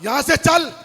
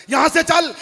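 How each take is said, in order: Both takes have the same delivery.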